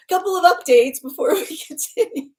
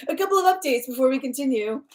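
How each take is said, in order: First: Higher, giggling through the words; can't keep a straight face; laughing through it. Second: Said in the usual way. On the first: Real, not acted. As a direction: still laughing while trying to move on to the updates.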